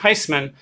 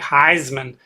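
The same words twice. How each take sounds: First: The middle consonant is an S sound. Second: The middle consonant is a Z sound. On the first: The speaker calls it right. "our family pronounces the name with an S sound" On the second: The speaker calls it wrong. "the often misused sound Z like"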